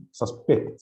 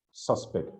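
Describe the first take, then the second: First: "suspect" as sus-PECT, weight on the end; stress on second syllable. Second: "suspect" as SUS-pect, weight on the opening; stress on first syllable. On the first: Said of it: "So you stress the second syllable". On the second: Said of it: "So the first syllable as a noun". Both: Shown as a demonstration.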